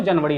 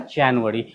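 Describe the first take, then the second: First: जनवरी said quickly as "JUN-va-ri"; Hindi pronunciation. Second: जनवरी low, as "JAN-u-wari"; English pronunciation. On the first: Teacher ruling it out in English, Hindi "jun-va-ri". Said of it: "नहीं होगा". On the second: Teacher giving English answer, low "JAN-u-wari". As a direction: say जनवरी with open "ja" and a "u". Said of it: "वो क्या हो जाएगा". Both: Shown as a demonstration.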